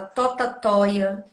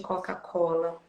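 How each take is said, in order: First: The syllables start with 't' sounds instead of 'k'. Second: The syllables start with 'k' sounds and include an 'l'. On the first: This is how a young child mispronounced it. The speaker calls it wrong. "Ele falava totatóia" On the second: This is the standard form of the word. The speaker calls it right. "em vez de Coca-Cola"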